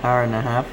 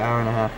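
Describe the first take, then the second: No difference in how they are said.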